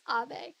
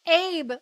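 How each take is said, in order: First: It does not sound like the English name. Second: It sounds like the English first name Abe. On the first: The speaker calls it right. "It's Abe" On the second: The speaker calls it wrong. "like he's Abe Lincoln"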